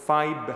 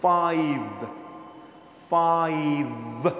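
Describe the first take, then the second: First: Learner's faulty "ফাইভ", closed-lip ending; mistaken attempt. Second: "ফাইভ" very drawn out, ending on a buzzed v; slow teacher's model of "ফাইভ", lips not meeting; clear f and v. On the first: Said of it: "ধরেন এরকম বলছে". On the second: Shown as a demonstration. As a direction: stretch "ফাইভ", teeth on lip for f and v. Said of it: "ফও আছে, ভও আছে".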